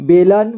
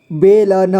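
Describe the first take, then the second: First: Said in the usual way. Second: बेलन split as बे, ल, न; syllable by syllable. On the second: Shown as a demonstration. Teacher showing learners बेलन, sounded out in parts. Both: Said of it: "इसे पढ़ेंगे".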